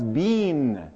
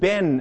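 First: The vowel is long, like in 'bean'. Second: The vowel is open, like in 'Ben'. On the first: "that's the way the Canadians say it. That's the way the British say it" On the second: "in Michigan, they pronounce it Ben, as in the name"

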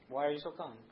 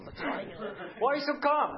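First: It is said plainly, with little drama. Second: It is said with more drama and panic.

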